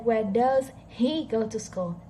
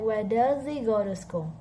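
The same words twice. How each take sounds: First: The h in 'he' is clearly pronounced. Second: The h in 'he' is dropped. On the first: "They didn't say" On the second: "They said"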